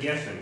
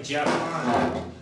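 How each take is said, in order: First: The first vowel is an 'e' sound. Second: The first vowel is an open 'a' sound. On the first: This is the pronunciation following the Tiberian tradition. "instead of Geffen" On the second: This is the pronunciation of a community without the segol vowel. "they say things like Jaffan"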